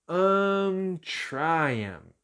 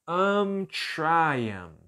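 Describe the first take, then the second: The two takes are said the same way.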